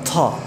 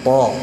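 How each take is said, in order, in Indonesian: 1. Bunyi t itu ringan dan tipis. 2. Bunyi t itu berat dan tebal. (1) "bukan ta ya" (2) "tebal sekali"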